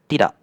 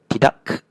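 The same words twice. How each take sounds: First: The word ends with a glottal stop. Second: The word ends with a released k sound. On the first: The speaker calls it right. "I said tidak. So that's the uh, the right way of saying it" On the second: The speaker calls it wrong. "Notice how I didn't say tidak"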